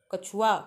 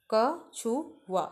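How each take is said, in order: First: Said in the usual way. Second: कछुआ drawn out very slowly, each syllable separate. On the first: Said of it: "कछुआ लिखा है". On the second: Shown as a demonstration. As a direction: spell out कछुआ slowly for kids. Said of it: "और ये है". (कछुआ को धीरे-धीरे खींचकर बोलना)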